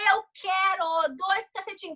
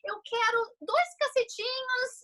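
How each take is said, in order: First: The request sounds harsh and demanding. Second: The request sounds warm and polite. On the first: An aggressive, impolite demand. "num timbre de voz assim, ó" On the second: A normal, courteous request. "eu chego super educada numa padaria"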